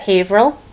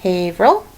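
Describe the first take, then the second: First: Haverhill as two syllables, HAVE-rill; Boston pronunciation. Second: Haverhill repeated with three syllables, HAVE-er-ul; Haverhill said with the middle kept; Boston pronunciation. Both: Shown as a demonstration. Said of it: "we pronounce that Haverhill".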